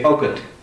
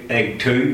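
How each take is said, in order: First: It is said as one merged word. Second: It is said as two separate words. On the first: The speaker calls it right. "we say ugut" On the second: The speaker calls it wrong. "we don't say egg two"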